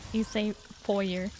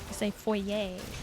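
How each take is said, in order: First: It is said the American English way. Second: It is said the French way.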